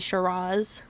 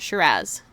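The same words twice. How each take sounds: First: It is said the fancy American way. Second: It is said the plain Australian way.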